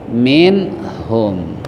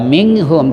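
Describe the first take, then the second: First: The n sound is pronounced clearly and distinctly. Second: The n sound is blurred, not pronounced clearly. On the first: The speaker calls it right. "tapi min hum" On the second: The speaker calls it wrong. "nggak dibaca min hum"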